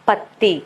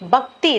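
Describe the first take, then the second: First: The middle cluster is a doubled 'tt' sound. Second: The middle cluster is a mixed 'kt' sound. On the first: The speaker calls it right. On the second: The speaker calls it wrong. "பக்தி இல்ல"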